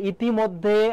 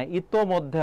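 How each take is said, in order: First: ইতিমধ্যে with "i" after the t, "iti-moddhe"; wrong form demo. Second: ইতোমধ্যে with "o" after the t, "ito-moddhe"; correct form demo. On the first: Teacher quotes the common mistake, ইতিমধ্যে drawn out with "iti". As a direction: say ইতিমধ্যে slowly and higher, as "iti". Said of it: "ইতিমধ্যে হবে না". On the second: Teacher corrects students' common mistake, ইতোমধ্যে said with "ito". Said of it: "ইতোমধ্যে হবে". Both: Shown as a demonstration.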